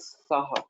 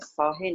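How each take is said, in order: First: The word ends with an 'a' vowel. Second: The word ends with an 'e' vowel. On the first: The speaker calls it right. "इसका उच्चारण करना चाहिए साहा" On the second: The speaker calls it wrong. "साहे नहीं कहना चाहिए"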